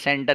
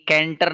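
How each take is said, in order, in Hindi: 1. यह शब्द S ध्वनि से शुरू होता है। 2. यह शब्द K ध्वनि से शुरू होता है। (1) "उसे सेंटर ही पढ़ेंगे आप" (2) "सी का प्रोनाउंसिएशन के नहीं, कैंटर नहीं पढ़ेंगे"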